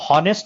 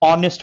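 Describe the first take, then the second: First: The word begins with an h sound. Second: The word begins directly with a vowel. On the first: The speaker calls it wrong. "इसको हॉनेस्ट नहीं बोलते हैं" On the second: The speaker calls it right. "ऑनेस्ट बोलते हैं"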